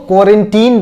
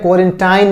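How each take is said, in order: First: The last syllable sounds like 'teen'. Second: The last syllable sounds like 'tine'. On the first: The speaker calls it right. "इसको क्वारंटीन बोलते हैं" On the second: The speaker calls it wrong. "क्वारंटाइन नहीं बोलते हैं"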